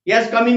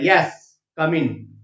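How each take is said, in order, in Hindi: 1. शब्द बिना विराम के आपस में जुड़ जाते हैं। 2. 'yes' के बाद एक छोटा विराम है। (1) "नहीं होता बोलते समय भी" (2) "अर्ध विराम वहां रुकना है"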